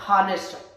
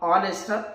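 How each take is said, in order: First: The word starts with an audible h sound. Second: The word starts with a vowel, no h sound. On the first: The speaker calls it wrong. "not honest" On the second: The speaker calls it right. "H is silent letter but pronounce A"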